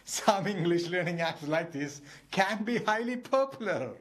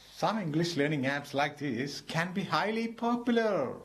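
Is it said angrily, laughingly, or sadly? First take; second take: laughingly; sadly. First: It is said while laughing, amused. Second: It is said in a sad, regretful voice.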